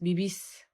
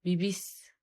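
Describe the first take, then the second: First: The stress falls on the last syllable. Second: The stress falls on the last syllable.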